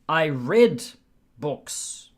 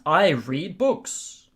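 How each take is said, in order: First: The word read sounds like red. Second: The word read does not sound like red. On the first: It is about the past. "Past tense, red. Like the color" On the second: It is about the present. "In the present"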